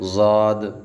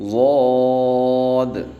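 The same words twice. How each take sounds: First: The letter name sounds light and thin. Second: The letter name sounds heavy and full. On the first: The speaker calls it wrong. "इसको भी बारीक नहीं पढ़ना। ज़ाद ऐसे नहीं पढ़ना" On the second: The speaker calls it right. "इसको भी मोटा पढ़ना है"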